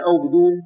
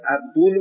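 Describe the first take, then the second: First: عبدون said as "Obdun", first vowel o; rejected o-vowel pronunciation. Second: عبدون said as "Abdun", first vowel a; corrected a-vowel pronunciation. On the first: Teacher rejecting a misreading of the name, عبدون with initial o. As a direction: open عبدون with a short o: "ob-DUN". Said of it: "تلفظ صحیحش احمد ابن عبدون باشه، نه عبدون". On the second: Teacher giving the name's proper reading, عبدون with initial a. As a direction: open عبدون with a short a: "ab-DUN". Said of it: "تلفظ صحیحش احمد ابن عبدون باشه". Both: Shown as a demonstration.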